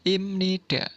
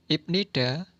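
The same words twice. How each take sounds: First: Imnida said with m, not b, and a falling end; nasalised m. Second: Ibnida said as written with a clear b, syllable by syllable; spelled-out reading. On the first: Teacher gives learners the real sound imnida with a nasal m. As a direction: say imnida with a smooth m sound where the b is written. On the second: Teacher shows the written form Ibnida with a clear b sound. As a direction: read Ibnida letter by letter with a hard b before the n. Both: Shown as a demonstration. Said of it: "pengucapannya menjadi".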